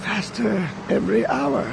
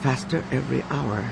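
First: Put-on quiet old man foreboding; ominous old man voice. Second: Soft remembered words; hushed echo. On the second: A narrator's reading. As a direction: murmur it like an echo in the mind. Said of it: "reverberating in their thoughts".

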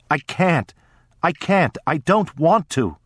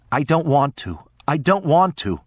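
First: Put-on high tearful sobbing child; crying child. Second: Put-on crying child. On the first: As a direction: beg through tears, voice high. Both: A narrator's reading. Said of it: "I cried".

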